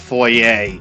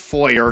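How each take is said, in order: First: The word ends without an R sound. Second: The word ends with an R sound. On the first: The speaker calls it wrong. "not foyer" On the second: The speaker calls it right. "it's pronounced foyer, There's a R at the end"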